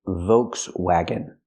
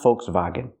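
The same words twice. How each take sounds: First: The word is pronounced the English way. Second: The word is pronounced the German way. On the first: The speaker calls it right. "In English, we say Volkswagen" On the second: The speaker calls it wrong. "It's not Volkswagen. That's German"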